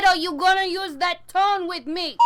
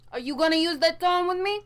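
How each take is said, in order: First: Louder, higher repeated scolding; angry repeat. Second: Sharp, higher scolding question; stern warning. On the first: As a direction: hammer the warning home, fed up. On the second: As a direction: warn them to watch their tone. Scolding someone off-mic. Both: Acted.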